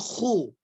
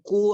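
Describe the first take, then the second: First: It starts with a rasping kh sound. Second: It starts with a plain k sound. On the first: The speaker calls it right. "tapi khu" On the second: The speaker calls it wrong. "jangan jangan ku"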